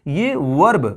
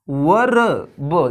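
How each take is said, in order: First: वर्ब with the r rolled out clearly, the wrong way; वर्ब with a full r, shown as a mistake; wrong way to say verb. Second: वर्ब drawn out slowly, r silent, "vəb"; slow model वर्ब, the r left silent; right way to say verb. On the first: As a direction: demo the wrong वर्ब, r sounded hard. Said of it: "इसमें वर्ब नहीं पढ़ेंगे". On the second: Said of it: "इसमें जो आर है वो silent है". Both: Shown as a demonstration.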